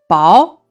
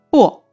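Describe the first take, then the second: First: The syllable is said with a non-falling tone. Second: The syllable is said with a falling tone. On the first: It means thin or bland. "咱们读的是薄" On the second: It is used in the word for mint. "读的是去声薄"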